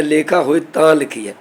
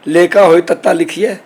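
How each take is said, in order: First: ਤਾਂ as one long nasal syllable; read as nasal taan. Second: ਤੱਤਾ in two syllables, tat-taa, in place of taan; mock-question reading with ਤੱਤਾ spelt as a letter; letter name read literally. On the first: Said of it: "ਤਾਂ ਲਫ਼ਜ਼ ਜਿਹੜਾ ਅਸੀਂ ਪੜ੍ਹਦੇ ਹਾਂ". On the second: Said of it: "ਉਹ ਇਸ ਤਰ੍ਹਾਂ ਪੜ੍ਹ ਸਕਦੇ ਨੇ". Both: Shown as a demonstration.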